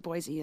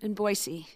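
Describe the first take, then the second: First: The middle consonant is a buzzing z. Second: The middle consonant is a hissing s. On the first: The speaker is not a local. The speaker calls it wrong. "they say Boise, and you know they're not natives" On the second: The speaker is a local. The speaker calls it right. "To say it with an S"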